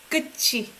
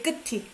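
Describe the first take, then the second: First: The middle consonant is pronounced as ch. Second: The middle consonant is pronounced as t. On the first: The speaker calls it right. "I pronounce it as ch here" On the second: The speaker calls it wrong. "You don't say"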